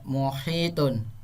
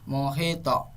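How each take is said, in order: First: The word ends smoothly with a final -tun. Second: The word ends on a strong, bouncing 't' sound. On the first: The word is read without stopping on it. "muhito seharusnya mu, muhitun" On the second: The reader stops on the word at the verse end. "Dibaca terang dan memantul, bunyi pantulannya besar"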